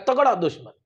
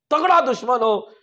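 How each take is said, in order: First: Said in the usual way. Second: तगड़ा hit higher and louder, with a falling close; दुश्मन stays light while तगड़ा rings out; stress on तगड़ा. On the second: Shown as a demonstration. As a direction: lean hard into तगड़ा, a preacher driving the point home.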